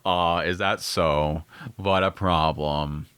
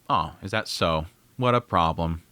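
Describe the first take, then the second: First: It is said in Randolph's extremely bored voice. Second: It is read in a plain reading voice.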